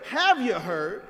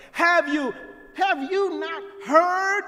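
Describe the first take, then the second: First: Said in the usual way. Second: "not" stressed, voice climbing high to the end. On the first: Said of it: "He does not say". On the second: Shown as a demonstration. Preacher quoting the prophet's rebuke to Israel, stress on "not". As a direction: press the challenge, leaning on "not". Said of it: "tone has moved into an argumentative".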